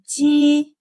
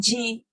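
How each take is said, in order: First: The first consonant is soft and light. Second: The first consonant is harsh, like English j. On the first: The speaker calls it right. "way, way softer" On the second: The speaker calls it wrong.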